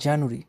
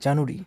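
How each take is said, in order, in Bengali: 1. এটি তিনটি সিলেবলে উচ্চারিত হয়, মাঝের সিলেবলটি হালকা করে। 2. এটি তিনটি সিলেবলে উচ্চারিত হয়, মাঝের সিলেবলটি হালকা করে।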